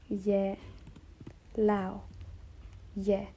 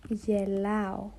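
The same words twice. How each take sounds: First: "Ye", "lao" broken up and said slowly; syllable by syllable. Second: "Yelao" stressed on the last syllable, y-eh-lah-oh; Greek word. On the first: Teacher breaking "Yelao" into syllables for students. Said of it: "Don't forget the tonos". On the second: Teacher giving Greek "Yelao" as the example. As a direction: say "Yelao" with its tonos on the end. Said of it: "I am laughing in Greek". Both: Shown as a demonstration.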